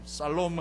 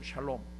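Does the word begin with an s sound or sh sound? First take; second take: s; sh. First: The word begins with a plain s sound. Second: The word begins with an sh sound. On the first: The speaker calls it wrong. "살롬 하지 마면 안 돼" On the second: The speaker calls it right. "발음 잘 하셔야 돼요"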